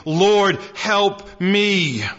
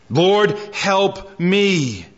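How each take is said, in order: First: Said in the usual way. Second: Very slow, stretched-out begging; drawn-out plea. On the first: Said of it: "knelt before him, saying". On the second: Retold or imitated. Preacher repeating the woman's second cry to Jesus, very slow pleading. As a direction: draw the plea out, word by word. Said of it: "Second cry that echoes".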